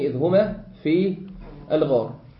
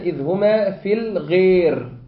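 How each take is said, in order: First: The long vowel is a fully open a. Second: The long vowel is halfway between a and ee.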